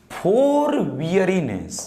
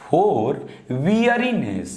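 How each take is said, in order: First: For weariness read out very slowly, word by word; slow dictation pace. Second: "for weariness" read slowly again with weight on "weariness"; slow repeated dictation. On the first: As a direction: drag out "for weariness" slowly for the class. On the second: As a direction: stretch "weariness" for students. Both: Shown as a demonstration.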